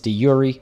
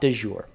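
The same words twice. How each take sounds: First: It is pronounced the Latin way. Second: It is pronounced with a French-style sound. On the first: "If you're speaking Latin, it's de jure" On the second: "It is not de jure. ... there is no French there"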